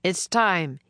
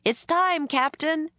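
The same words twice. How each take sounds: First: Captain repeating announcement. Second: High, raised far-off hail; called from afar. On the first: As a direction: announce it steadily to the men. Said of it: "he repeated". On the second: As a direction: call up high to someone along the river. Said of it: "someone called from up the river". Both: A narrator's reading.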